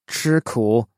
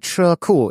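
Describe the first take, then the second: First: It is said with the tones of 'eat bitter'. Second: It is said with the tones of 'garage'. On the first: It means to suffer or endure hardship. "Which is like eat bitter or suffer" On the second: It means a parking space or garage. "it's parking space or garage"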